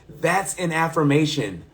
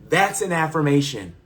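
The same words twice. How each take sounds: No difference in how they are said.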